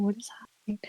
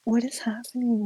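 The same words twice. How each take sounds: First: Frightened whisper. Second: Said in the usual way. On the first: Retold or imitated. Freaked out in the haunted tower, whispering in disbelief. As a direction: repeat it in a stunned whisper. Panicking after hearing the ghost.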